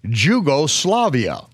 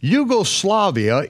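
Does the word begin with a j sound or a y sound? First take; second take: j sound; y sound. First: The word begins with a j sound. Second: The word begins with a y sound. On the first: The speaker calls it wrong. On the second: The speaker calls it right.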